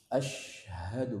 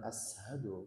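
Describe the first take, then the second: First: The consonant after the first vowel is 'sh'. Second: The consonant after the first vowel is 's'. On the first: The speaker calls it right. "pakai syad" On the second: The speaker calls it wrong. "bukan ashadu, beda"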